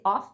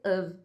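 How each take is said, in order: First: "off" with an F ending; wrong "of" as "off". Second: "of" as "uhv"; uh vowel and V in "of"; correct "of". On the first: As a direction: open O and F in "off". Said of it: "Não vai ser off". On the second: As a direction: model "of" with a V ending. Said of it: "vai ser of". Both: Shown as a demonstration.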